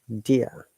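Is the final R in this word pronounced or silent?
silent. The final R is silent. "In British English once again, R is silent"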